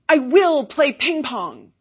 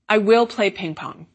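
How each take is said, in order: First: It is said with a firm, determined intonation. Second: It is said as a plain, neutral statement. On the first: It expresses determination to learn the sport. "here I'm going to do it with slightly different intonation" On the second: It simply states a future action. "Here it is just a simple statement of future action"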